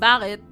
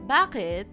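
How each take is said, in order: First: It is said in an angry, sharp tone. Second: It is said in a sweet, gentle tone. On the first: The speaker is annoyed. "But sometimes if you're mad" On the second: The speaker is asking kindly. "that sounds nicer. That that sounds sweeter"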